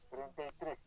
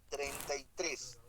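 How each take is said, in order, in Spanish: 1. Las palabras suenan apagadas e imprecisas. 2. Las palabras suenan claras y cercanas. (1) "normalmente eso es lo normal, se pronuncia de esta forma" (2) "se escucha así, treinta y tres, como si estuviera pronunciando en forma directa a través de, de sus oídos"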